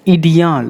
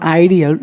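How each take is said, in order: First: IDEAL said "ee-dee-al"; French-style "ee-dee-al" for IDEAL; corrected pronunciation. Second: IDEAL said English-style, "eye-dee-ul"; wrong pronunciation. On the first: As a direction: start IDEAL with "ee". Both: Shown as a demonstration. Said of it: "It's not ideal".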